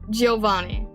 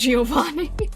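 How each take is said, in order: First: The i after G is slurred into the vowel. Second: The i after G is pronounced clearly. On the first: The speaker calls it right. "The I is less pronounced" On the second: The speaker calls it wrong. "really really clearly Giovanni"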